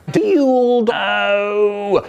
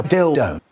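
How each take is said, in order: First: Word stretched out long in a silly, higher voice; funny long voice. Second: Said in the usual way. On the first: Retold or imitated. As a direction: drag out "Dildo" in a goofy put-on voice. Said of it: "really long with a funny voice going". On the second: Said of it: "really long with a funny voice".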